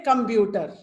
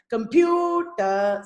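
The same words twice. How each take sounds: First: Malayalam-style "computer", all syllables on one pitch; quick, even "computer" as Malayalam speakers say it; Malayalam accent. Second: Slow "computer" with "pu" lifted and held; drawn-out "computer", pitch peak on "pu"; higher-pitched stressed syllable. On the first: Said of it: "No pitch difference". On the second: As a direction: raise the middle syllable of "computer". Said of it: "see, pew is higher pitch". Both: Shown as a demonstration.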